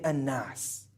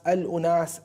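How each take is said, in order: First: The word is said contracted, two syllables. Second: The word is said in full, three syllables. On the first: This is the later shortened form. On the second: This is the original form of the word.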